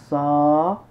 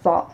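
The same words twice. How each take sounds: First: The vowel is long. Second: The vowel is short. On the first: "Le son A prolongé se prolonge avec la lettre Alif" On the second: "Ce sont des sons courts"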